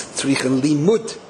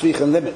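First: The last word is said fully, ending in 'limut'. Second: The last word is said quickly, sounding like 'limit'. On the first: It means a Torah scholar's talk needs teaching. "the right word is tzrichen limut" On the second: It means a speech needs a time limit. "if you're saying it quickly, it's tzrichen limit"

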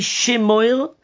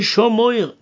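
First: The first vowel is a short 'e' sound. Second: The first vowel is an 'o' sound. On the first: Keep this commandment in the future. The speaker calls it wrong. "don't say Shemoir" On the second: Keep the commandments constantly, at all times. The speaker calls it right. "Says Rashi, Shomoir"

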